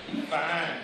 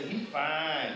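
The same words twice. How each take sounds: First: Lightly voiced admiring girl; mock-admire him the way a girl would; preacher voices a girl's admiring remark; imitating a girl. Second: Laughing mock girl's admiring aside; mock girl's admiring comment with a laugh; imitating a girl. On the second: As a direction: tease it like a girl eyeing a boy.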